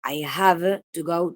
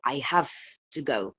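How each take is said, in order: First: Slow "I have to go" with a long voiced v in "have"; unassimilated form. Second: "I have to go" with "have" devoiced to "haff", then a short break; assimilated form. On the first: Teacher showing the form before assimilation, slow voiced "have". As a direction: lean on the v of HAVE in "I have to go". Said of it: "pasa de". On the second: Teacher showing regressive assimilation, "have" said as "haff". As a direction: turn the v of HAVE into f before "to go". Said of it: "le seguía una voiceless consonant". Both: Shown as a demonstration.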